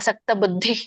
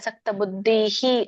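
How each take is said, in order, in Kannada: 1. ಪದವು ಯಾವುದೇ ಹೆಚ್ಚುವರಿ ಧ್ವನಿ ಇಲ್ಲದೆ ಸರಳವಾಗಿ ಕೊನೆಗೊಳ್ಳುತ್ತದೆ. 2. ಪದದ ಕೊನೆಯಲ್ಲಿ ಪ್ರತಿಧ್ವನಿಯಂತಹ 'hi' ಧ್ವನಿ ಸೇರಿಸಲಾಗಿದೆ. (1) "ಇಲ್ಲಿ ಹೇಳ್ಬಾರ್ದು" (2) "ವಿಸರ್ಗ ಅದು ಹೇಳ್ಬಾರ್ದು"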